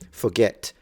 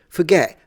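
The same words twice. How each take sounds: First: The final T sound is clearly pronounced. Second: The final T sound is dropped. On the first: The setting is professional. "I will pronounce all my T's, including the ones at the end" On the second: The setting is casual among friends. "rather than"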